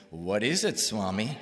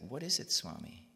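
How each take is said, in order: First: Retold louder, pressing question; insistent question. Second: Said in the usual way. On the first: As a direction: press for an answer, raising your voice. Asks again, more insistently.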